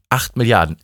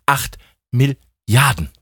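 First: Said in the usual way. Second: ACHT, MIL-LIARDEN, broken up by pauses; emphatic repetition. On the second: Acted. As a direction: hammer out "Acht Milliarden" slowly, piece by piece. („Acht Milliarden“ langsam, in Stücken betont) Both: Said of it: "Ich wiederhole mich da gerne".

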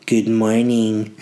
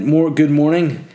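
First: Slow, stretched good morning; drawn-out greeting. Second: Said in the usual way. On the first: Shown as a demonstration. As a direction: drag out good morning slowly.

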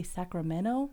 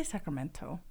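First: Sacramento with the T dropped after the N. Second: Sacramento with the T sounded after the N; pronounced T. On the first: Showing co-host how we say it, "Sacramento" without its T. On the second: Correcting herself to co-host, "Sacramento" with its T pronounced. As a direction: say "Sacramento" with a clear "-men-to". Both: Shown as a demonstration. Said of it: "we don't pronounce the T's".

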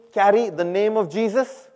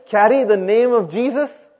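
First: Raised, prompting call to a congregation; clear, slightly louder and higher prompt; call for repetition. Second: Loud, raised, forceful prompt to a congregation; rousing preacher's call for a stronger response; emphatic rallying call. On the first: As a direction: lead the crowd in saying it. Leads congregation in repeating. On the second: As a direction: call it out with full conviction. Prompts again after unconvinced response. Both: Shown as a demonstration.

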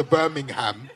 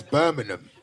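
First: "Birmingham" with the ham said out, BIR-ming-HAM; full Birming-ham. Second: "Birmingham" clipped to BIR-ming-um, ham reduced to um; London Birmingum. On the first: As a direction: pronounce "Birmingham" ending in a clear ham. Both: Shown as a demonstration. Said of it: "why do you Londoners say Birmingham".

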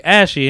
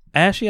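First: "Ashy" as a clear, falling statement; "Ashy" stated plainly with the tune going down; said clearly. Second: "Ashy" higher, rising into a question; "Ashy" with a puzzled upward lilt. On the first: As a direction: repeat "Ashy" distinctly, as if explaining. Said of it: "Maybe I ain't say it clearly". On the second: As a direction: echo "Ashy" back as an unknown word. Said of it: "and he was like". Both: Retold or imitated.

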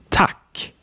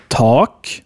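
First: Tak with a short, open front 'a'. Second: Tak as 'taak', with a long dark vowel. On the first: Teacher giving more examples, short A in tak. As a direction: cut the vowel in tak short. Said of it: "different versions of A". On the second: Teacher giving more examples, long A in tak. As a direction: hold the back 'ah' in tak long. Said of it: "Here are some more examples". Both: Shown as a demonstration.

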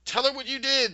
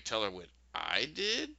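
First: High, loud accusing yell, imitated. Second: "Tell her what I did?" unraised, with a drawn rise at the end; questioning echo. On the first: Miranda accusing Tip before the mistress, mock yelling. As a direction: yell it at her as an acted accusation. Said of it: "Miranda yells". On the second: Retold or imitated. Tip answering Miranda, "Tell her what I did?" as questioning echo.

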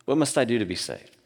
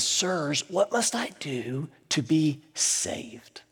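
First: Said in the usual way. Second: Slow hushed plea; trembling and afraid. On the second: Retold or imitated. Terrified jailer begging Paul and Silas, hushed and slow. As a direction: ask it slowly, almost breathless with fear. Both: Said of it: "trembling and afraid, and he says".

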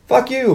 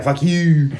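First: High-pitched acted insult from a bar patron; mock angry retort. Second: Acted retort at ordinary pitch and volume; mock comeback. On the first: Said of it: "The guy's like". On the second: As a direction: answer the insult in a put-on voice, without raising it. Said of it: "And he's like".

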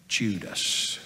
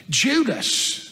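First: Low, quiet drop on the name; grave hushed reveal. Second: Name pitched high, then falling away; incredulous repeat. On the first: Peter revealing who led the mob, grave hushed reveal. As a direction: let the name fall softly and low. Names the betrayer, first take. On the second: Peter repeating the betrayer's name, incredulous repeat. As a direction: exclaim the name with a high swoop. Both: A narrator's reading.

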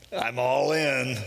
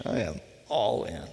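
First: Long drawn-out mock cry; committed leap cry. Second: Measured, sober statement with a falling end; sober declaration. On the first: Jumper calls out on leaping off the ledge, drawn-out cry. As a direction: stretch it out like someone mid-jump. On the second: Shown as a demonstration. Preacher restates the leap as commitment, sober declaration. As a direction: state it deliberately, word by word. Repeated soberly after the joke.

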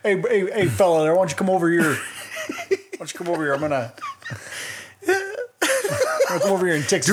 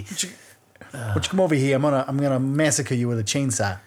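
First: Higher-pitched Texan yokel, hammed-up; mock Texas accent. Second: Hammed-up Boston accent, r's dropped; mock Massachusetts accent. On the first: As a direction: call someone over in a silly Texas twang. Mock Texan chainsaw killer skit. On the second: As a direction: redo the killer's line as a Massachusetts local. Massachusetts version of the same skit.

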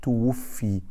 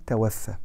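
First: توفي said tuwuffi, with "u" then final "i"; توفي voweled as the passive verb, tuwuffi; passive-voice pronunciation. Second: توفى said tawaffa, with "a" vowels throughout; توفى voweled as the active verb, ta-waf-fa; active-voice pronunciation. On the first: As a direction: say توفي as tu-wuf-fi, ending in a long "i". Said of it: "لما بيموت بنقول توفي". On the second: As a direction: say توفى as tawaffa, ending in a long "a". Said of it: "احنا مش بنقول". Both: Shown as a demonstration.

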